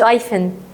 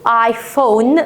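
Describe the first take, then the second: First: The second syllable has a reduced vowel. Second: The second syllable has a full 'o' vowel. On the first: The speaker calls it wrong. "مش ايفن" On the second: The speaker calls it right. "قولوا ايفون"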